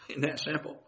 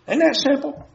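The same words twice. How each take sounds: First: Quiet knowing appeal; soft rhetorical question. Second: Isn't that simple? thrown out high and loud; rising emphatic appeal to the congregation; emphatic rhetorical question. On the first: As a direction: let it drop almost to an aside. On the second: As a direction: sell it as obvious and exciting. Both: Shown as a demonstration.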